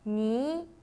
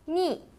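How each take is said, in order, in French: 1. Le ton monte du milieu vers le haut. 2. Le ton tombe brusquement du haut vers le bas.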